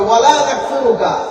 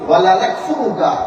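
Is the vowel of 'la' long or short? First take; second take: long; short. First: The vowel of 'la' is drawn out long. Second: The vowel of 'la' is short. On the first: We do not disbelieve in you. The speaker calls it right. "এখানে আপনাকে একটা টান দিতে হবে" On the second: We surely disbelieve in you. The speaker calls it wrong. "আমরা অবশ্যই আপনার সাথে কুফরি করি।"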